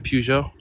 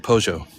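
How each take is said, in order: First: It is said with an American pronunciation. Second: It is said with a British pronunciation. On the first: "I would always say Peugeot" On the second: "but they say Peugeot"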